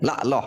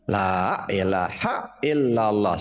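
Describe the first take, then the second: First: Sounds are dropped, shortening the phrase. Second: An extra glottal stop is inserted into the phrase. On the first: "Dah dikurangin" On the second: "sudah tambah hamzah satu"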